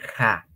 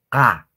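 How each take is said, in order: First: The consonant is a breathy rasping sound. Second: The consonant is a hard stop sound. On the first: The speaker calls it wrong. "no es ja" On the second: The speaker calls it right. "la Q tiene su propia pronunciación. Ka"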